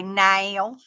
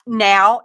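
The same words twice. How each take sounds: First: "now" stretched slowly into "nayl"; drawn-out "now" with an l-like ending; imitated pronunciation of now. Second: Said in the usual way. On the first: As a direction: mimic "now" said like "nail". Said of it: "They say now". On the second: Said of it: "N O W".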